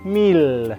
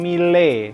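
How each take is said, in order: First: The word is said plainly as French 'mil'. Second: The vowel is given a made-up, non-French sound. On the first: The speaker calls it right. "tapi mil" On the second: The speaker calls it wrong. "jangan mengarang-arang E. Jadi bukan mile"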